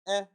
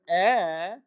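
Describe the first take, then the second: First: The vowel is said short and quick. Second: The vowel is said at normal length. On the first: It is a hurried vowel marked by two dots. "you say eh" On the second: It is a full segol vowel. "instead of saying eh"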